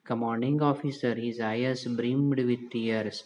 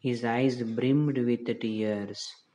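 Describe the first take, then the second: First: Slow, careful reread of the sentence; slow story reading. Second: Slow, deliberate reading aloud for the class; slow story reading. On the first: Teacher rereading the line for students, slow and careful. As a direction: read each English word out slowly again. Same line read again slowly. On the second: Teacher reading the story line to her class, slow and deliberate. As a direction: read each English word out slowly to students. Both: Shown as a demonstration.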